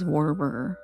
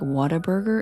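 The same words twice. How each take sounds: First: It begins with no H sound. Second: It begins with a breathy H sound.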